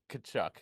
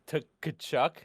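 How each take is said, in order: First: The name starts with a K sound. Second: The name starts with a T sound. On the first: "I think it's a silent T" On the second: "Old me would have said"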